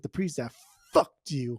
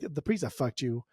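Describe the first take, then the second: First: The word fucked is strongly emphasized. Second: The word fucked gets no special emphasis.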